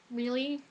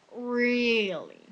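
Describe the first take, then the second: First: REALLY short and soft, rising at the end; questioning disbelief. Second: REALLY stretched long and falling at the end; drawn-out disbelief. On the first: Student hears about the writing test, REALLY rising in disbelief. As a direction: ask REALLY as a quick, quiet question. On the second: Student dreading the writing test, REALLY drawn out and falling. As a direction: drag REALLY out as a fed-up groan. Repeats it, fed up. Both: Retold or imitated.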